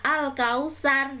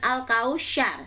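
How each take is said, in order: First: The consonant before the last vowel is s. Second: The consonant before the last vowel is sh. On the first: "bukan al-kausar" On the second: "bukan al-kausyar"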